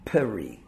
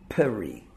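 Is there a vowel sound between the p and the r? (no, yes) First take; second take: yes; yes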